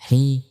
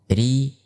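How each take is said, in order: First: The syllable is said with a burst of breath. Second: The syllable is voiced without a burst of breath. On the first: The speaker calls it wrong. "Bukan seperti itu" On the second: The speaker calls it right. "dikeluarkan tanpa menghentakkan nafas"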